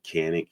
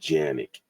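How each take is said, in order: First: The name begins with a hard K sound. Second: The name begins with a J sound. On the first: This is how it is said in the United States. "we call it Canic here in the United States" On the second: This is how it is said in Turkey. "that C is enunciated as a J. So really, they call them Janik in Turkey"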